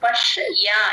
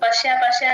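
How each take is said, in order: First: The 'ya' after 'sh' is clearly heard. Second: The 'ya' is blended quickly into 'sh'. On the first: The speaker calls it right. "యా వినిపించాలి" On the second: The speaker calls it wrong. "Usual గా అందరూ పశ్య పశ్య అని చదివేస్తున్నారు. అలా కాదు"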